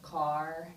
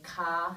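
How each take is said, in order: First: The final R is pronounced. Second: The final R is dropped.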